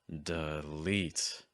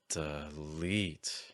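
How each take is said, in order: First: The first vowel is reduced and placed low. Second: The first vowel is reduced and placed low.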